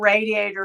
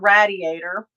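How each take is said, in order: First: It uses a non-Pennsylvania regional pronunciation. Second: It uses the Pennsylvania regional pronunciation.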